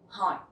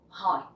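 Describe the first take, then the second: Both takes have the same delivery.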